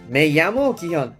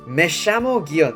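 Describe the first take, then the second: First: The ll is said like a 'y' sound. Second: The ll is said like a 'sh' sound. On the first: This is one regional way of saying it. "에이로 발음하는 사람도 있고" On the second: This is the way in Uruguay and Argentina. "우루과이나 뭐 아르헨티나 이런 나라들은 이거를 에쉐 이렇게 발음을 해요"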